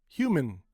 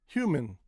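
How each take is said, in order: No difference in how they are said.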